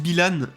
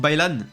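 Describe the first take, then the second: First: The name begins with a plain 'bi' sound. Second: The name begins with a 'bai' sound. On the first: The speaker calls it wrong. "j'ai dit Bilan" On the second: The speaker calls it right. "on dit Bailan"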